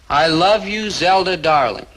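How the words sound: It is said with warm feeling.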